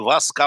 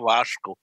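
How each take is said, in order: First: The middle consonant is a plain s sound. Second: The middle consonant is an sh sound. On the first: This is the form people are used to. The speaker calls it wrong. "они не Васко" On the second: This is how the name should be said. The speaker calls it right. "а Вашко"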